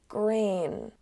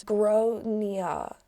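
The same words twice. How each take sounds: First: Grain said like the English word grain; English-style Grain; mispronounced name. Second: Gronia said GRAWN-ya; Irish-style Gronia, ending in -ya; proper Irish pronunciation. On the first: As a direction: say Grain as one syllable, rhyming with rain. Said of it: "the kid is called". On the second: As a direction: say Gronia in two syllables, first one stressed. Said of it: "generally pronounced as". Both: Shown as a demonstration.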